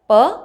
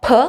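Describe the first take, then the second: First: P with hardly any air; unaspirated P. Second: P with a gush of air; aspirated P. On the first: Teacher contrasting the two sounds, unaspirated P. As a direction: say P without the puff. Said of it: "not so much". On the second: Teacher letting learners feel the air, aspirated P. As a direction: burst the P out with a puff. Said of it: "you feel the gush of air". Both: Shown as a demonstration.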